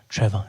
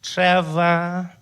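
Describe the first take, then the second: First: Said in the usual way. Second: Louder, higher drawn-out echo; unfriendly receptionist. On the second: Acted. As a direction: repeat the name back as a surly receptionist. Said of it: "She's not friendly at all".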